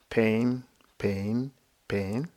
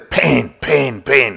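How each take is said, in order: First: The words are said softly and gently. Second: The words are said loudly and forcefully. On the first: The speaker calls it right. "It's just a soft mental note" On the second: The speaker calls it wrong. "Don't say pain, pain, pain. No, no, no"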